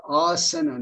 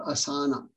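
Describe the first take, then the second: First: "asana" with a short, neutral middle vowel, a-sə-na; correct Sanskrit pronunciation. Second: "asana" with every vowel a full open a, a-sa-na; wrong pronunciation. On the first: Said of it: "very wrong pronunciation of this word". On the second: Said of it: "not asana". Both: Shown as a demonstration.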